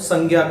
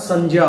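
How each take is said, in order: First: The conjunct is said the common everyday way. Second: The conjunct is said as distinct j and ny. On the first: This is how people usually say it in everyday speech. The speaker calls it wrong. "अभी तक हम इसका जो उच्चारण है वो संज्ञा करते हैं, जो कि हमारी एक तरह से आम बोलचाल भाषा में आ चुका है" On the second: This is the pure, actual pronunciation. The speaker calls it right. "वास्तविक रूप में देखें तो इसका उच्चारण संज्ञा होता है"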